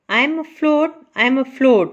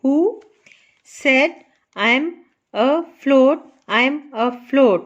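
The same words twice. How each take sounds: First: Said in the usual way. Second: "who, said, I am, a - float" with gaps between; syllable by syllable. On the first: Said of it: "afloat है इसके टू parts बनते हैं". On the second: Shown as a demonstration. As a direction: dictate "who said I am afloat" piece by piece, splitting a-float. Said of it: "note करें इसको कैसे". ("who said I am afloat" रुक-रुक कर, टुकड़ों में)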